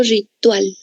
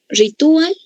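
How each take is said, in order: First: "ritual" as ri-TUAL, falling; two-syllable pronunciation. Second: "Ritual" as ri-TU-al, higher and rising; three-syllable pronunciation. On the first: Teacher asking how to pronounce it, "ritual" said ri-TUAL, falling. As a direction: glide "ual" into one syllable in "ritual": ri-TUAL. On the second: Teacher asking how to pronounce it, "Ritual" said high as ri-TU-al. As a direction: split the vowels of "Ritual" into ri-TU-al, pitched up. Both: Shown as a demonstration. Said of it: "¿Cómo pronuncio?".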